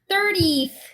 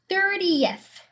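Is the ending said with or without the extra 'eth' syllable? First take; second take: without; with. First: The ending lacks a separate 'eth' syllable. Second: The ending has a separate 'eth' syllable. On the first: The speaker calls it wrong. "어떻게 읽으시냐면, thirtieth 이렇게 읽으세요" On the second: The speaker calls it right. "E, S 이렇게 읽으셔야 돼"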